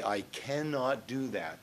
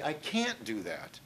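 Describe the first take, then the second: First: CANNOT said in full as two clear syllables, slowly; uncontracted form. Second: "can't" run together as one syllable; contracted form. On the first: Teacher shows students stilted dialogue, uncontracted and slow. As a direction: spell out "cannot" slowly, without contracting. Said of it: "Use contractions. Most people say". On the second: Teacher shows students natural dialogue, contracted. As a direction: say "can't" as one word, a little softly. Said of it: "Use contractions". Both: Shown as a demonstration.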